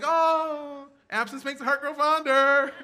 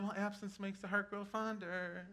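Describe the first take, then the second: First: It sounds relieved, as if glad they leave. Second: It sounds sad, as if consoling oneself.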